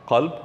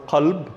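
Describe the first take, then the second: First: The word begins with a deep throat q sound. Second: The word begins with a deep throat q sound.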